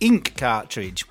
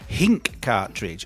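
First: Ink starts directly with a vowel sound. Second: Ink starts with an added h sound. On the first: The speaker calls it right. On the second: The speaker calls it wrong.

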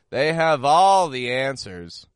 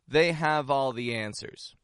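First: The voice rises sharply and mockingly on 'all'. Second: The voice stays plain and level on 'all'. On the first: The speaker does not believe they know. "Do you hear how I'm raising my tone in the word all? ... It's going right up" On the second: The speaker trusts their knowledge. "this phrase can be used in a sincere context"

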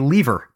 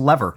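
First: The word is said the Canadian way. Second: The word is said the American way. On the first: This marks the speaker as being from Canada. "in the United States, people do not say lever" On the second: This is how people in the United States say it. "Apparently, it's a lever"

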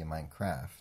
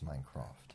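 First: It is said in an American accent. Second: It is said in a British accent.

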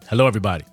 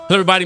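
First: The greeting is said slowly. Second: The greeting is said fast.

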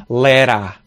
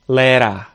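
The two takes are said the same way.

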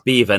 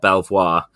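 First: The name sounds like the word 'beaver'. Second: The name is said with 'bel' and 'vwar' sounds. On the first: The speaker calls it right. "Beaver is Beaver" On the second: The speaker calls it wrong. "not Belvoir"

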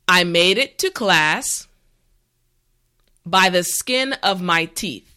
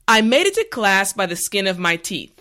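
First: The sentence is said slowly and carefully. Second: The sentence is said at natural speed. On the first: "this time repeat after me" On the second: "this time we will go at a more natural pace"

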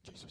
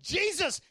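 First: It is said fearfully and timidly. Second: It is said firmly with authority.

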